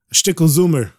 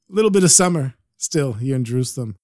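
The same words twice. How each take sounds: First: Little bit said as shtickle, summer as zoomer with a Z; Yiddish accent. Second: Said in the usual way. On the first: Shown as a demonstration.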